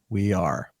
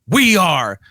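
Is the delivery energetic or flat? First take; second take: flat; energetic. First: It is said flatly with low energy. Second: It is said with rising, building energy. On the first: It fails to pump up the team. The speaker calls it wrong. "He's just going" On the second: It pumps up the team. The speaker calls it right. "like he'd build the energy with them"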